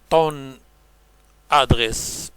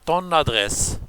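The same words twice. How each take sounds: First: The final n of ton is not linked. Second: The final n of ton links to adresse. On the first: The speaker calls it wrong. "On ne dit pas" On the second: The speaker calls it right. "mais on dit; la liaison est obligatoire"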